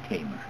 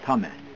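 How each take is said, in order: First: The name is pronounced the English way. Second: The name is pronounced the Turkish way. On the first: "In uh, English, I'm called [name]" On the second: "This is Turkish pronunciation"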